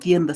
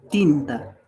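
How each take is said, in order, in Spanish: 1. La primera sílaba tiene el diptongo ie. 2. La primera sílaba tiene una vocal i simple. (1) "no como tienda" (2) "sino como tinta"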